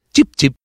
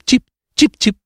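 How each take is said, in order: First: Said in the usual way. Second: High bird chirps, imitated; swallow chirping. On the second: The narrator imitates the swallow arriving, high chirping. Si sentì d'improvviso cip.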